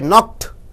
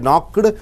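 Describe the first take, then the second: First: The word ends with a t, one syllable. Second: The ending is an extra syllable. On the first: The speaker calls it right. "you say knocked. You have to end with t. It is one syllable" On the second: The speaker calls it wrong. "You don't say knocked"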